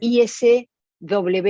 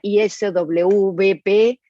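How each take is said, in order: First: The letter W is said the Argentine way. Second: The letter W is said another country's way. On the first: "sería I S W P en Argentina" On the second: "en otros países sería I S W P"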